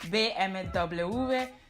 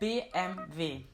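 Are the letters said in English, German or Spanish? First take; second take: Spanish; German. First: The letters are said the Spanish way. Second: The letters are said the German way. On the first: "I know in Spanish they pronounce it" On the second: "the German way"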